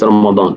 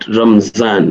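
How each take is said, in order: First: The middle consonant is a d sound. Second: The middle consonant is a z sound. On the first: The speaker calls it right. "the good word is Ramadan" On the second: The speaker calls it wrong. "Don't say it Ramzan"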